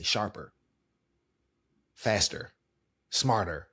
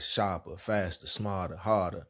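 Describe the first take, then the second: First: "sharper" "faster" "smarter" with crisp, fully sounded R endings; careful corporate speech. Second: DC accent, "faster" said as "fasta", R endings dropped; relaxed DC accent, let the R's fall away. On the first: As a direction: enunciate "faster" and "smarter" like a brand spokesperson, every R pronounced. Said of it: "if I'm doing brand content". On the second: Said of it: "That's my D C accent". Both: Shown as a demonstration.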